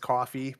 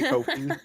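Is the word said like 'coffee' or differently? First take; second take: coffee; different. First: It sounds like the word coffee. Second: It sounds different from the word coffee. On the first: The speaker calls it right. "It's coffee" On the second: The speaker calls it wrong. "but I say Kofi"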